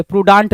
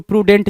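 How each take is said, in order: First: प्रूडांट with a long "daant" ending; misspelt pronunciation. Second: प्रूडेंट with a "dent" ending; correct pronunciation. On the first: Teacher reads out the misspelt option, प्रूडांट with "daant". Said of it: "प्रूडांट नहीं". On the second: Teacher corrects the misspelt option, प्रूडेंट with "dent". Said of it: "प्रूडेंट चाहिए". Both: Shown as a demonstration.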